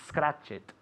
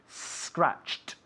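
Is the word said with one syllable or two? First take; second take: two; one. First: The ending is an extra syllable, like 'it'. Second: The ending is a bare t with no vowel. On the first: The speaker calls it wrong. "Not it" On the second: The speaker calls it right. "Escucha bien"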